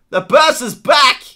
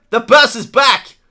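Both takes have the same delivery.

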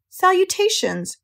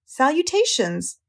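First: Slow, much higher sing-out greeting; thin voice, repeating. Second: Slow, higher, lightly voiced greeting; thin voice. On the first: Unseen friend repeating the greeting, thin and very high. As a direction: repeat it drawn out, pitched right up. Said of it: "repeated the voice". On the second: Unseen friend greeting the pig, lightly thin and slow. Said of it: "the thin voice that had addressed him". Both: A narrator's reading.

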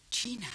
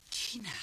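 First: Said in the usual way. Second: Breathy whisper of a name; eerie hushed Gina. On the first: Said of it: "Hij fluisterde mijn naam". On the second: Shown as a demonstration. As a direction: whisper Gina as the attacker did. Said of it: "Zo klonk het".

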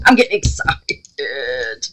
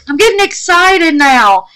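First: Slow, low excitement. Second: Higher and louder, bubbling over with excitement; excited burst. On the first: Crafter to her viewers, drawing out the words slowly. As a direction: lower and slowly drawn out, holding the excitement in. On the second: Crafter to her viewers, suddenly bursting with excitement. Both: Real, not acted.

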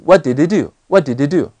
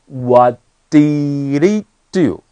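First: "What did he do?" run together quickly as "wha-di-dee-do"; linked pronunciation. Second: "What did he do?" drawn out slowly, h of "he" dropped; dropped sounds. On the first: Teacher asking why it comes out like this, "What did he do?" quickly linked. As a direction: say "What did he do?" fast, h of "he" dropped. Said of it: "为什么会念成这个东西啊". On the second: Teacher showing students which sounds go unspoken, "What did he do?" slow with dropped sounds. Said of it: "有几个东西我都没有念". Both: Shown as a demonstration.

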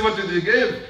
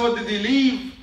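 First: "give" hit hard at the end; stress on give. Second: "leave" raised, then falling; stress on leave. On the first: Preacher correcting a misquote to his congregation, stress on "give". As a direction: land firmly on "give". Contrasts misquote with real words. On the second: Preacher giving the Prophet's real question, stress on "leave". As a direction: punch "leave" as the key word. Contrasts real words with misquote. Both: Retold or imitated.

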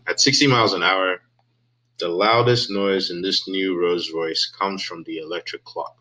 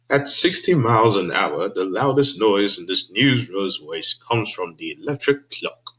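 First: Said in the usual way. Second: Headline read in a mock British accent; reading the ad in a light put-on British accent. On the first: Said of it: "I don't know why I was doing that in a British accent". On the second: YouTuber reading the Rolls Royce ad in a British accent. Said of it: "I was doing that in a British accent".

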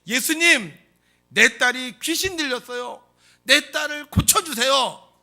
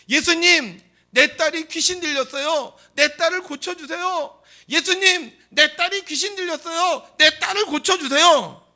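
First: Loud, high, drawn-out plea; 큰 소리로 외침. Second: Very high, full-force shouted plea; 더 크게 소리침. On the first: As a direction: shout it so he hears as he passes. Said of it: "큰 소리로 외쳤습니다". (큰 소리로 애타게 외치기) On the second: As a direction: scream the plea at the top of your voice. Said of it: "더 크게 소리칩니다". (목청껏 높이 부르짖기) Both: Acted.

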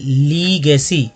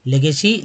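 First: "लीगेसी" slowly, with a stretched "ली"; long first vowel. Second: "लेगेसी" said quicker, opening with "ले"; short le opening. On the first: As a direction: draw out lee in "लीगेसी". Teacher models word, long first syllable. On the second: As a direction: start "लेगेसी" with le, not lee. Teacher gives alternative reading of word. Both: Shown as a demonstration.

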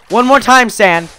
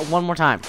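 First: Loud, high threat; exasperated, raised-voice ultimatum; shouted warning. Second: Said in the usual way. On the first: Real, not acted. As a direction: yell a last warning. Warning repeated, shouted at sand.

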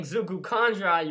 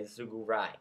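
First: ZUGU KANDRAI in full, said louder; full name form. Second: ZUGU RAI with just Rai, pitched lower; shortened name form. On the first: Vlogger explains the unshortened name, Zugu Kandrai said firmly in full. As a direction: give all of Kandrai after Zugu, firmly. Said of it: "instead of saying". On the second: Vlogger shows the shortened name, Zugu Rai said lower. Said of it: "you're gonna say". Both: Shown as a demonstration.

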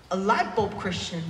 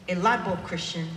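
No difference in how they are said.

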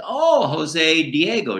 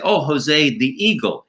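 First: "Diego" drawn out as di-EH-go, high; corrected name. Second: "Eagle" said as the English word, high pitch; misheard name. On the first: Ventriloquist finally gets the puppet's name, slow high "Diego". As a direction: raise the voice and stretch "Diego" in dawning understanding. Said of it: "D I E G O". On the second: Ventriloquist mishears his puppet, saying "the Eagle" in plain English. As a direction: raise the voice, turning the surname into "the Eagle". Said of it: "No, listen, Jose Diego". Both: Acted.

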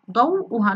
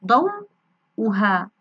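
First: Said in the usual way. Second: ضوءها drawn very slowly, pausing between ضو and ءها; word sounded out. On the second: Shown as a demonstration. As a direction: break ضوءها before the hamza, stretching each part. (نطق ضوءها ببطء شديد مع الفصل قبل الهمزة) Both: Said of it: "لاحظوا هنا جاءت واو".

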